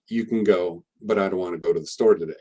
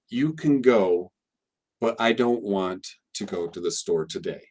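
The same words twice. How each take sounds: First: It is said fast with many reduced vowels. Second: It is said slowly with full, clear vowels. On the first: "when I say it naturally and fast" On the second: "pronounced it the way uh, some uh, maybe some teachers would read it and pronounce it carefully"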